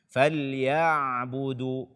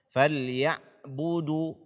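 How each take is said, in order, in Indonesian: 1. Bunyi 'ain mengalir sebagian, antara rapat dan terbuka. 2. Bunyi 'ain ditahan rapat dan terputus. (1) "dia adalah huruf bainiyah" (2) "ini syiddah"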